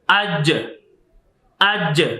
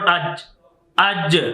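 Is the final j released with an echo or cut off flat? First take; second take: echo; flat. First: The final j bounces with an echoing release. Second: The final j stops flat with no echo. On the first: The speaker calls it right. "Next is" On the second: The speaker calls it wrong.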